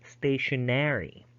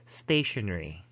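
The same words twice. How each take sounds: First: The ending has an extra full syllable. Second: The ending is shortened, with no extra syllable. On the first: "it's as if they would insert a letter A" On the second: "they would just say stationary. No insertion"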